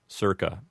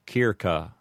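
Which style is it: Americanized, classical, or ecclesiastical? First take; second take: Americanized; classical. First: It uses an Americanized pronunciation. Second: Both C's are hard K sounds. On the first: "commonly heard with an Americanized pronunciation" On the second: "with a correct Latin pronunciation, would sound like"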